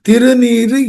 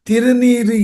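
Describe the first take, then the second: Both takes have the same delivery.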